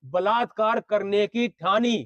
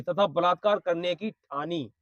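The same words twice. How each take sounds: First: Slow, deliberate repeat landing on ठानी; measured emphasis, ठानी drawn out as the key word; stress on ठानी. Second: Said in the usual way. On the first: Real, not acted. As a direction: spell it out slowly, weighting ठानी. Repeats line to prove only intended.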